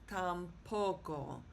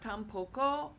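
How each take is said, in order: First: The stress falls on the syllable po. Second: The stress is not on the syllable po. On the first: The speaker calls it right. "you can sort of hear that punch on that first O" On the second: The speaker calls it wrong. "Not tampoco"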